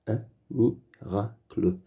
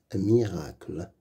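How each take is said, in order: First: Un miracle split into un, mi, ra, cle; syllable by syllable. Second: Said in the usual way. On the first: Shown as a demonstration. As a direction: sound out "Un miracle" with gaps between syllables. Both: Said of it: "Lis les mots".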